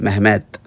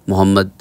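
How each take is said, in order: First: It is said as Mehmet, ending in a t. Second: It is said as Mohammad, with an h sound. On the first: "Turkish में इसे मेहमत कहते हैं" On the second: "हमारे यहाँ Pakistan India में मोहम्मद कहते हैं"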